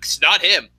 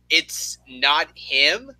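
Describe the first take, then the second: First: It is said very fast, words run together. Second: It is said slowly and clearly.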